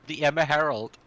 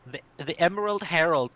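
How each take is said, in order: First: "Emma" said EM-ma, rhyming with Herald's end; Emerald as Emma. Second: "Emerald" in three clear syllables, EM-er-ald; Emerald said fully. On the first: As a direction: say "Emma Herald", two syllables. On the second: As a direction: say "Emerald Herald" carefully, full Emerald. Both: Shown as a demonstration.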